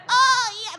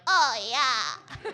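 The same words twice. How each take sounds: First: Very high loud moan; shaking porn moan. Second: High mock moan, laughing; mock porn moan with a laugh. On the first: Retold or imitated. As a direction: overdo a shaking climax moan. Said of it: "They start shaking". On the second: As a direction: imitate a porn actress moaning. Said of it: "They're like".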